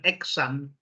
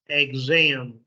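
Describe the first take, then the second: First: The x is said as a ks sound. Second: The x is said as a gz sound. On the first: The speaker calls it wrong. "it's not exam or exit" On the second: The speaker calls it right. "so the sound is guz"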